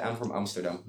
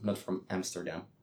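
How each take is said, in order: First: Amsterdam said the Dutch way, stress on the last syllable. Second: Amsterdam said the English way, AM-ster-dam with a flat a. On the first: Showing friends how she says her hometown, Dutch pronunciation. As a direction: say Amsterdam as locals do. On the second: Contrasting for friends the English way of saying her city. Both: Shown as a demonstration. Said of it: "it sounds so ala".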